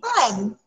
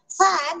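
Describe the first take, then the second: First: The word begins with a p sound. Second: The word begins with an f sound. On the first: "nagiging pan" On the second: "Kaya yung fan"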